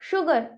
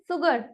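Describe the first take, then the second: First: The word begins with a sh sound. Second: The word begins with an s sound. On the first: The speaker calls it right. "एस और यू का combination श की sound" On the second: The speaker calls it wrong. "Not सुगर... that is a wrong pronunciation"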